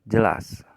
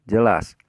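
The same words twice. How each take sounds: The two takes are said the same way.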